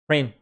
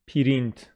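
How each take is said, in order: First: It is said as a single syllable. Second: An extra vowel splits it into two syllables. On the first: The speaker calls it right. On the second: The speaker calls it wrong.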